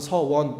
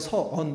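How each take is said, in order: First: The second syllable starts with a w-glide. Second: The second syllable has no w-glide. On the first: The speaker is concentrating hard. The speaker calls it right. "정신 차리고 긴장해서 해봐 그러면 서원 이렇게" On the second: The speaker is talking casually. The speaker calls it wrong. "그냥 평범하게 얘기하면 서언 이렇게 돼서 발음이 안 되네"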